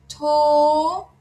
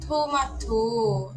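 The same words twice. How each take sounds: First: Tomato slow, high and loud; Korean loanword. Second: Tomato slow and plain; Korean loanword. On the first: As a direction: stretch out tomato brightly. (tomato lento e alto) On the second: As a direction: repeat Tomato slowly. (Tomato devagar, normal) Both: Shown as a demonstration.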